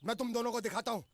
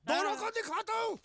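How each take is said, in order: First: Said in the usual way. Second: High-pitched angry repeat; worked-up threat. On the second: Acted. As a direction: threaten them again, voice shooting up.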